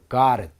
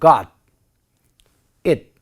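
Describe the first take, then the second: First: The final consonant links into the next vowel. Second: The two words are said separately and distinctly. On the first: The speaker calls it right. "이렇게 발음이 되는 것이죠" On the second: The speaker calls it wrong. "이렇게 발음하지는 않고요"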